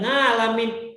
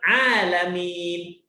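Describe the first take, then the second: First: It begins with a nasal ng sound. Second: It begins with a pressed throat sound. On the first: The speaker calls it wrong. "Dia sebutkan ngalamin" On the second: The speaker calls it right. "Pak bilang alamin"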